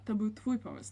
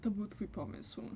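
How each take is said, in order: First: It is said in an accusing, blaming tone. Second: It is said in a flat, neutral tone. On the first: The listener is to blame for what happened. "szukamy taką ofiarę, w sensie winnego" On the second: It simply states whose idea it was. "No jest neutralna"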